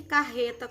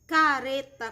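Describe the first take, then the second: First: CARRETA with a throaty, h-like R; double R. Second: CARETA slow, with a tapped R; single tapped R. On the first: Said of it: "com dois R's". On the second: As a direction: say "careta" with a light tongue-flick R. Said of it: "com R". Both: Shown as a demonstration.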